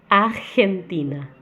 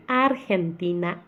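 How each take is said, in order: First: "Argentina" slowed with a throaty r from the back of the throat, marked wrong; "Argentina" with a guttural Brazilian r. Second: "Argentina" slowed, r tapped with the tongue. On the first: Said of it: "Tá errado". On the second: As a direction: correct Spanish "Argentina" with a tapped r. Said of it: "ele é feito com a língua". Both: Shown as a demonstration.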